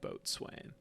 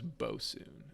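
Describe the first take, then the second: First: It is said as spelled, boat-swain. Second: It is said as two short syllables, bo-sun. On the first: The speaker calls it wrong. "not boatswain" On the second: The speaker calls it right. "that person's name is bosun"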